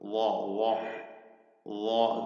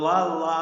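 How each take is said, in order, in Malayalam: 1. ഈ അക്ഷരം ഘനമായി ഉച്ചരിക്കുന്നു, കട്ടിയുള്ള നിറഞ്ഞ ശബ്ദത്തോടെ. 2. ഈ അക്ഷരം ലഘുവായി ഉച്ചരിക്കുന്നു, നേർത്ത സാധാരണ ശബ്ദത്തോടെ. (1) "അപ്പൊ വായില് തഫ്ഖീം ഉണ്ടാകും" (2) "ശരിയാവൂല"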